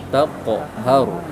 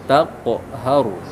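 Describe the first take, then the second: The two takes are said the same way.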